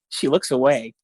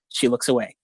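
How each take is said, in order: First: It is read in an amused, funny tone. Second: It is read in a flat, clinical tone.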